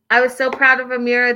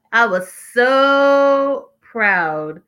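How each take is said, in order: First: Said in the usual way. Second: "so" stretched out very long; slow, gushing weight on "so"; emphatic SO. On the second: Real, not acted. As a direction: draw out "so" for emphatic praise. Emphatic repeat of her praise.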